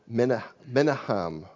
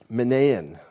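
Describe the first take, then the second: First: The name is pronounced in a Hebrew way. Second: The name is pronounced in an anglicized way.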